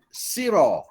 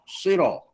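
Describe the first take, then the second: First: The first sound is a plain, light s. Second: The first sound is a heavy, emphatic s. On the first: "dengan huruf sin" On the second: "kita baca dengan sod"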